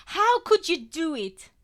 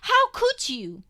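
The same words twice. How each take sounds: First: Loud, high, tearful outburst; angry through tears. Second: Very high, loud, slow cry; anguished cry. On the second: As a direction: cry it out in pain. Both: A narrator's reading. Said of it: "I gabble angrily between tears".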